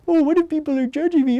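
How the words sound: It is said in a silly put-on voice.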